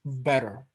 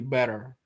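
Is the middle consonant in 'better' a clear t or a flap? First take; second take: flap; flap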